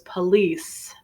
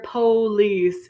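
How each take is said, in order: First: It is said the General American way. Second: It is said the Southern US way. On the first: "more commonly spoken around the country" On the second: "you might hear police in the South in the U S A"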